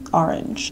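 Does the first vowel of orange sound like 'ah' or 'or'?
ah. The first vowel sounds like 'ah'. "but like in general I'll be like"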